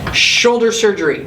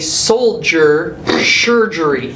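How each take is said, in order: First: The first word sounds like shoulder. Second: The first word sounds like soldier. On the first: The speaker calls it right. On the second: The speaker calls it wrong.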